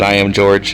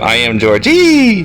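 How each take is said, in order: First: The name ends plainly without an 'ee' sound. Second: The name ends with a drawn-out 'ee' sound. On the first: "but I could pronounce it" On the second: "I usually pronounce his name"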